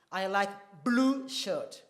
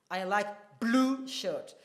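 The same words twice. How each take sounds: First: Slow, with pauses around blue; stress on blue. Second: Very slow, blue set off by pauses; I like... blue... shirt, blue leaned on; stress on blue with pauses. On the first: Teacher modelling a stressed word, slow. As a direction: pause before and after blue. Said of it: "So see now when I say". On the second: Teacher demonstrating stress to class, very slow. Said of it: "a pause before blue and a small pause after". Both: Shown as a demonstration.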